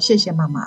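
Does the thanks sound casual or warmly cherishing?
casual. The thanks sounds casual and flat.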